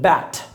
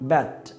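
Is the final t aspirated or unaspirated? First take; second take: aspirated; unaspirated. First: The final t is released with a puff of air. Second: The final t is held back without aspiration. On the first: The speaker calls it right. "ঠর খকে ঠর খই বলেন" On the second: The speaker calls it wrong. "ট বলার try করেন"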